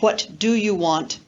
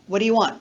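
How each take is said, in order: First: Each word is said separately and fully. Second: The words are blended and linked together. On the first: The speaker calls it wrong. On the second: The speaker calls it right. "That's an example of blending and linking occurring in spoken English"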